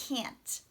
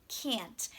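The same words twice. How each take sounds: No difference in how they are said.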